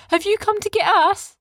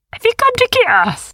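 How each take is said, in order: First: Put-on boys asking back. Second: High, loud, soothing little creature; calm the worried ones; littlest beast. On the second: The littlest beast reassures the others, high. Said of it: "she asked". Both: A narrator's reading.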